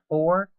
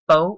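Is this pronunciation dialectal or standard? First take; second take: standard; dialectal. First: It is said in a standard pronunciation. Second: It is said in a vernacular dialect pronunciation. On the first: "instead of for" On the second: "all say fo"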